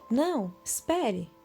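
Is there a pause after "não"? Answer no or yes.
yes. There is a pause after "não". It tells the listener to wait.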